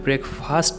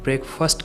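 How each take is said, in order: First: The second syllable sounds like 'fast'. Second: The second syllable sounds like 'first'. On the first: The speaker calls it wrong. "मैं ब्रेकफास्ट नहीं" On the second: The speaker calls it right. "फर्स्ट second third वाला फर्स्ट"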